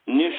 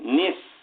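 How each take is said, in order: First: The final s is palatal, like sh. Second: The final s is dental, like plain s. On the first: The speaker calls it wrong. "दंती सा निश नहीं" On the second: The speaker calls it right. "दंती सा"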